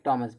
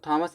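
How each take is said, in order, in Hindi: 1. पहली ध्वनि साधारण T ध्वनि है। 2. पहली ध्वनि के बाद H की फूंक आती है। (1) "एच साइलेंट होता है" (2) "इसको थॉमस नहीं पढ़ेंगे"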